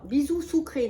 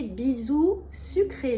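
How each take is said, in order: First: "sucré" said as "soukré", with an oo sound; tongue slip. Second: "sucré" said slowly with a clear French u, "sükré"; slow, deliberate "bisou sucré" with a proper u; careful correction. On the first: Showing her perfume to viewers, she slips on "sucré" as "soukré". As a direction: stumbles on "sucré", saying "soukré". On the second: Correcting herself for viewers, slowly saying "sucré" with a clear u. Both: Real, not acted. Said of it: "non, non, pas bisou sucré".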